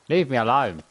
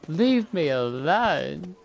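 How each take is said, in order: First: It is said in a firm, serious way. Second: It is said in a playful, flirty way.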